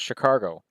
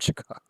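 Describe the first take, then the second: First: The word is said with an added R sound. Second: The word is said without any R sound. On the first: The speaker calls it wrong. "according to my dad, it was Chicago" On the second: The speaker calls it right. "There's no R in Chicago"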